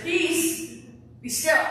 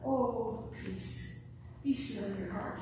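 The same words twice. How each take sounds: First: High and loud "Peace, be still" as a firm order; forceful command "Peace, be still". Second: Hushed, breathy "peace, be still"; gentle whispered "Oh, peace, be still in your heart"; soft and gentle. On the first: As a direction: order the wind and waves to shut up. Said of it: "He said". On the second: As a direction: say it like a tender lullaby. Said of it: "It wasn't". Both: Shown as a demonstration.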